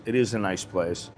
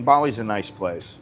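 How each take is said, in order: First: Is leaned on, a firm yes it really is; stress on is. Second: Said in the usual way. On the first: Shown as a demonstration. Insisting to viewers that Bali really is a nice place. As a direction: press the word is to insist.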